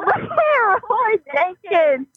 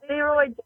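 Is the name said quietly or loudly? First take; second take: loudly; quietly. First: The name is shouted loudly. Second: The name is said fairly quietly.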